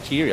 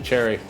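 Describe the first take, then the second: First: The first vowel is long, like 'cheery'. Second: The first vowel is short, like 'cherry'. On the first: The speaker calls it right. "I like Cheery" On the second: The speaker calls it wrong. "My bad"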